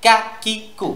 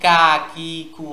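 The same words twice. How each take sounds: First: "কা কি কু" short and sharp, each separate; "কা কি কু" with no lengthened vowels; sharp short syllables. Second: "কা কি কু" drawn out as kaa, kee, koo; lengthened, unsharpened "কা কি কু"; wrong stretched syllables. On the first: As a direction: say "কা", "কি", "কু" as crisp bursts. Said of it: "যেন আওয়াজটা তীক্ষ্ণ হয়". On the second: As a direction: stretch each vowel of "কা কি কু" into a glide. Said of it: "এটা যেন কা কি কু না হয়". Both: Shown as a demonstration.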